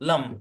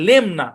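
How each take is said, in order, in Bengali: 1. স্বরধ্বনিটি দুর্বল 'uh'। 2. স্বরধ্বনিটি স্পষ্ট, ছোট 'e'। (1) "হালকা আকার দিয়ে লাম"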